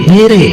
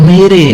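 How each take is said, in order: Both takes have the same delivery.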